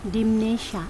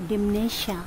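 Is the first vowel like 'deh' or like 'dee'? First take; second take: dee; dee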